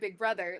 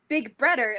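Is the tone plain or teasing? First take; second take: plain; teasing. First: It is said in a plain, neutral tone. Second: It is said in a playful, teasing tone.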